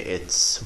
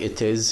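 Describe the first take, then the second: First: It is said as one contracted word. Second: It is said as two full words. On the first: "here we say it's" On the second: "like it is"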